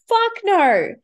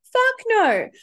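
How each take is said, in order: First: Loud, high fuck no; laughing emphatic refusal. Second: Higher, louder repeat of Fuck; doubled-down loud no; even louder fuck no. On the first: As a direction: belt out the denial. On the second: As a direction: push the repeat harder. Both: Real, not acted. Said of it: "repeated emphatic denial".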